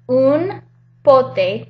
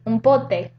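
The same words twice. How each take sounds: First: The phrase is said at a slow pace. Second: The phrase is said at a quick pace.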